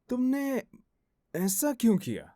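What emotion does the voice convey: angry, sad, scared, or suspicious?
suspicious. The line is said in a suspicious tone. "Suspicious"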